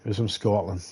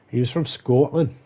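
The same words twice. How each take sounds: First: Said in the usual way. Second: Half-hearted attempt at a Scottish accent; bad Scottish accent. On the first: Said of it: "that Scottish accent". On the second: Shown as a demonstration. Comedian who can't do accents, attempting a bad Scottish accent. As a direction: have a clumsy go at sounding Scottish. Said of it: "I can't do Scottish accents".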